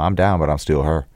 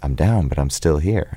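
First: It is said loosely and mumbled in a Memphis accent. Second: It is said in a plain, standard accent.

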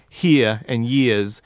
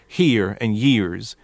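First: The R sounds at the ends are dropped. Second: The R sounds at the ends are strongly pronounced.

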